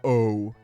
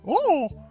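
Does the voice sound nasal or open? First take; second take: nasal; open. First: It sounds nasal and closed off. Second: It sounds open, with an open throat.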